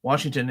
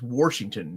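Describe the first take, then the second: First: Said in the usual way. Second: "Washington" with an added r, like Warshington; r slipped into the first syllable of "Washington"; regional pronunciation. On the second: Shown as a demonstration. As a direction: say "Washington" as "Worshington". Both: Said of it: "Washington is Washington".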